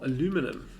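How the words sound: It is said the American way, four syllables.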